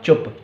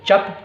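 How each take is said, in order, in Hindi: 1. स्वर गोल 'u' की ध्वनि है। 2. स्वर खुला 'a' की ध्वनि है। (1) "ये हो गया आपका चुप" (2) "चप तो कुछ होता नहीं है"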